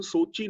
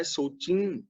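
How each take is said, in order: First: ਸੋਚੀ said with a plain oral ending, no nasal; ਸੋਚੀ without the bindi, oral final vowel; ਸੋਚੀ ending in an open, un-nasalized vowel; wrong pronunciation. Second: ਸੋਚੀ with a nasal final vowel, as ਸੋਚੀਂ; ਸੋਚੀ with the bindi, ending nasalized; ਸੋਚੀ said as ਸੋਚੀਂ, nasal on the last vowel. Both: Shown as a demonstration. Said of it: "ਬਿੰਦੀ ਲਗਾ ਕੇ ਪੜ੍ਹਨਾ ਹੈ".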